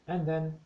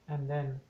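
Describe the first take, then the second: Both takes have the same delivery.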